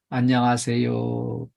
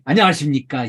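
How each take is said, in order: First: It is said quietly and half-heartedly. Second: It is said clearly and sincerely.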